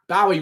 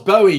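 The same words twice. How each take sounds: First: The first syllable rhymes with 'cow'. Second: The first syllable rhymes with 'go'. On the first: It sounds like a name for a dog. The speaker calls it wrong. "Bowie would be a dog. Bow Wowie" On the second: It is a fitting name for a cat. The speaker calls it right. "Of course, Bowie, because it's a cat"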